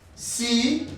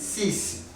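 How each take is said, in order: First: The word ends on the vowel, no final consonant. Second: The word ends with a clear final 's' sound. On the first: Another word follows the number. "without pronouncing the X when maybe it's followed by any other digit" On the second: The number stands alone. "this number as a single, it is six"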